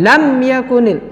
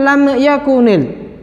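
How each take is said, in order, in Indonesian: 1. Huruf m dipotong dengan hentakan. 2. Huruf m dilepas dengan gema yang memantul. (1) "atau dihentakkan" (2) "tidak boleh dipantulkan"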